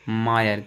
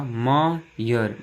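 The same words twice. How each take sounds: First: Said in the usual way. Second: "मायर" very slowly as मा ... यर; syllable by syllable. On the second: Shown as a demonstration. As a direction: stretch "मायर" with a gap before यर. ("मायर" को धीरे-धीरे मा ... यर) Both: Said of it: "यहाँ पर आई किसका sound".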